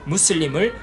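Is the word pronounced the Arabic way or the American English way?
Arabic. It is pronounced the Arabic way, Muslim. The speaker calls it right. "아랍어 무슬림"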